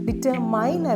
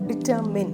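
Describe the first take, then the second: First: The last syllable rhymes with 'mine'. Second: The last syllable sounds like 'min'. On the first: The speaker calls it wrong. "ഡിറ്റർമൈൻ അല്ല" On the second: The speaker calls it right.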